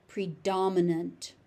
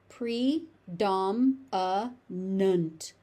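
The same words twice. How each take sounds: First: Said in the usual way. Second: "Predominant" very slow as pre-dom-uh-nunt; syllable by syllable. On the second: Shown as a demonstration. Teacher breaking the word down for learners, syllable by syllable. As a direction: pause between each syllable of "Predominant".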